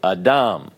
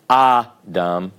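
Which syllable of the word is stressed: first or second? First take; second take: second; first. First: The stress is on the second syllable. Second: The stress is on the first syllable.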